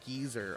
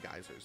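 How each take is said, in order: First: It is pronounced the British way, like geezer. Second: It is pronounced the American way, like guyzer. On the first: "I think you guys pronounce it geyser over there" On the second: "We call them geysers in America"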